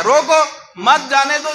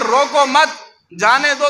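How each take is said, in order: First: Punched "रोको", break, "मत जाने दो" joined; pause after रोको. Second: "रोको मत" joined, then "जाने दो"; pause after मत. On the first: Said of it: "ये माना मफहूम गलत है". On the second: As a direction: keep मत tied to रोको, break before जाने. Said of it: "तो दुरुस्त है". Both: Shown as a demonstration.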